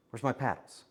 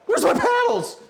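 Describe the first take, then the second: First: Said in the usual way. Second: Very high, loud frantic yell; panicked shriek. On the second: Real, not acted. Screaming because the mixer paddles have gone missing. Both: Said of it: "Getting me worked up".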